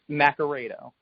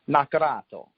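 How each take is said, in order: First: The name is said the American way. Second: The name is said the Italian way. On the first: This is how the family says it. "it's Nacarado" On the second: This is how it is said in Italy. "in the old country, it's pronounced Nacarato"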